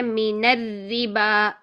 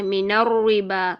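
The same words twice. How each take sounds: First: الربا with both ر sounds thin and light, drawn out slowly; correct light ra. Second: الربا with the ر said thick and heavy, slow; wrong heavy ra. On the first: Teacher models the correct thin ر in الربا for students. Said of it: "تو ہم نے دونوں را کو باریک رکھنا ہے". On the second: Teacher shows students the wrong heavy ر in الربا. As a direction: demonstrate the common mistake, heavy ر in الربا. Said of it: "ایسے پڑھ دیتے ہیں، یہ غلط ہے". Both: Shown as a demonstration.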